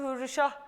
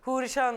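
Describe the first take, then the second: First: The name ends with an h sound. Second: The name ends with an n sound. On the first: The speaker calls it wrong. "Ben hep yanlış söylüyorum" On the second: The speaker calls it right. "Hürrişan aslında"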